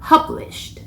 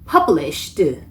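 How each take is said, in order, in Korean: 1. 마지막 -ed는 가벼운 바람 소리예요. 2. 마지막 -ed 소리를 너무 세게 해요. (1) "바람 소리로 마무리를 해주셔야 합니다" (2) "published 하면 너무 세게 한 거죠"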